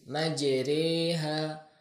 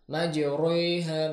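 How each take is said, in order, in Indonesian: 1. Bunyi r dibaca ringan dan tipis. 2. Bunyi r dibaca berat dan tebal. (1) "tapi dibaca dengan tipis" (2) "tidak dibaca dengan tebal. Majriha misalnya tidak"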